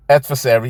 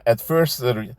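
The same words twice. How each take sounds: First: Adversary said cleanly as "AD-ver-sary", louder; careful, corrected adversary; corrected word. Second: Adversary said as "atfurst", cut short; a fumbling first go at adversary; stumbled word. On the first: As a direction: fix adversary and say it fully. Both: Real, not acted.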